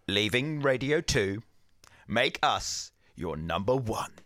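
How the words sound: Leaving Radio two sounds like a statement.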